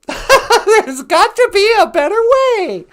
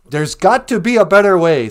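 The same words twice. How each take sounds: First: Much higher, slow, laughing ad voice; hammed-up infomercial. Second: Said in the usual way. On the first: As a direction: oversell it like a cheesy TV ad, laughing. Infomercial line, hammed retake.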